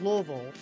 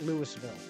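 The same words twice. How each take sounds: First: The city name is said the local way. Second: The city name is said an offensive outsider way. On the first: The speaker is from the city. The speaker calls it right. "if you're from Louisville, you call it Louisville" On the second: The speaker is an outsider who provokes locals. The speaker calls it wrong. "if you're just looking to get ended, you call it Louisville"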